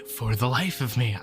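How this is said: It is said in a breathy voice.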